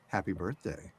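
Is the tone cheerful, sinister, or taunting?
sinister. It sounds sinister and menacing.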